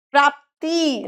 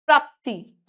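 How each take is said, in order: First: प्राप्ति with a stretched final ee; long-ī error. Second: प्राप्ति ending quickly on a short i; brief last vowel in प्राप्ति. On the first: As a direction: say प्राप्ति wrongly as "praapteee". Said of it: "छोटी की मात्रा". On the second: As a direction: finish प्राप्ति briskly. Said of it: "जल्दी बोल जाते हैं". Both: Shown as a demonstration.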